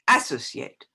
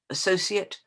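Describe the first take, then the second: First: The stress falls on an unusual syllable. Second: The stress falls on its usual syllable.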